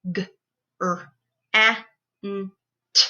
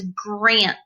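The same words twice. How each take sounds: First: G... r... a... n... t, one by one; sounded out phonemes. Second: Said in the usual way. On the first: Shown as a demonstration. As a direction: GRANT split into five separate sounds. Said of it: "breaking down those words into their sounds". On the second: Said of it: "breaking down those words".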